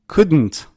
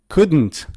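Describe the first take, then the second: The two takes are said the same way.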